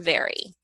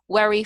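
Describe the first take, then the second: First: The word begins with a V sound. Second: The word begins with a W sound. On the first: The speaker calls it right. "the teeth and the the lower lip connect" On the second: The speaker calls it wrong. "they say worry for very"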